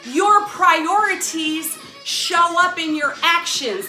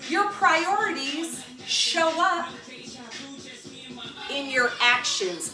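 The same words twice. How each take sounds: First: It is said at a louder volume. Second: It is said at a normal volume.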